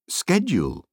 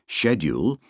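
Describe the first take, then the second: First: It is said the American-influenced way. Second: It is said the older British way. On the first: This form shows American influence on younger speakers. "the two youngest ones were saying schedule" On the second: This is the traditional form used by older speakers. "the two eldest ones, a decade older than Ben, were saying schedule"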